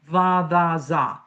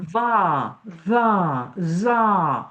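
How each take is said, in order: First: The syllables are cut off short. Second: The syllables are held long and open. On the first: The speaker calls it wrong. "don't cut it off. Don't say" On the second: The speaker calls it right. "Hold it, hold your voice, hold it open"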